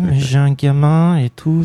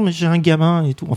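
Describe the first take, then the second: First: The phrase is spoken at a slower pace. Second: The phrase is spoken at a quicker pace. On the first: The speaker calls it right. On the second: The speaker calls it wrong.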